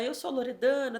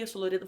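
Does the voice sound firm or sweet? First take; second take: sweet; firm. First: The voice sounds soft, sweet and cutesy. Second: The voice sounds steady, firm and assured. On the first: The speaker comes across as cute and less authoritative. The speaker calls it wrong. "se eu tô falando assim" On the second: The speaker comes across as self-assured and respected. The speaker calls it right. "Você já muda a sua entonação de voz"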